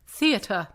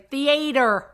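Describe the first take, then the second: First: The middle vowel is not an 'ay' sound. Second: The middle vowel sounds like 'ay' in Gatorade. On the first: The speaker calls it right. "how to say it properly" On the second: The speaker calls it wrong. "he used to say theater"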